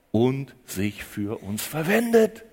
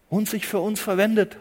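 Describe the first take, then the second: First: "verwendet" stretched, slow and low. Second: Said in the usual way. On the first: Acted. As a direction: let "und sich für uns verwendet" sink slowly, low. Preacher repeats the phrase twice.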